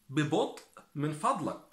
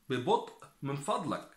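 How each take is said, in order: Both takes have the same delivery.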